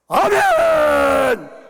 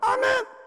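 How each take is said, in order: First: It is said loudly and powerfully. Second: It is said weakly and quietly.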